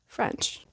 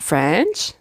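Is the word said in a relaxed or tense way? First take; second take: relaxed; tense. First: The word is said in a relaxed, laid-back way. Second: The word is said tensely and forcefully. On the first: The speaker calls it right. "Just relax" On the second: The speaker calls it wrong. "Not French"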